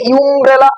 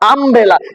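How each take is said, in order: First: The word begins with a 'yoo' sound. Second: The word begins with an 'uh' sound. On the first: The speaker calls it wrong. "আমরা কি বলি ইউমব্রেলা? না" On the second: The speaker calls it right. "আমব্রেলার উচ্চারণ এখানে আ হয়েছে"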